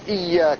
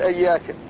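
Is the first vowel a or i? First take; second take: i; a. First: The first vowel is i. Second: The first vowel is a. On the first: The speaker calls it right. "يكسر حد الهمزة وشدد الياء" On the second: The speaker calls it wrong. "وشي يفتحها يقول إياك"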